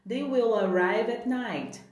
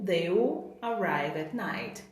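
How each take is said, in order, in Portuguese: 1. A palavra will é pronunciada por inteiro. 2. A palavra will é contraída junto a they.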